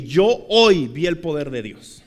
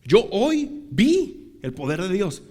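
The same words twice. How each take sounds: First: "Yo hoy vi el poder de Dios" slow, with weight on "hoy"; slow declaration leaning on "hoy"; firm conviction. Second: Slow, separated words with the peak on "vi"; word-by-word conviction. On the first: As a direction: declare "Yo hoy" deliberately, then run steadily through "vi el poder de Dios". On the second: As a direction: split off and stretch "vi". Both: Retold or imitated. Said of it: "me fui con la convicción".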